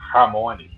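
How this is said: It has a strong Portuguese R at the start.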